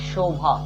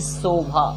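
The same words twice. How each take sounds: First: It begins with an sh sound, tongue at palate. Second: It begins with an s sound, tongue at teeth. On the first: The speaker calls it right. "ये है शोभा" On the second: The speaker calls it wrong. "ना कि शोभा"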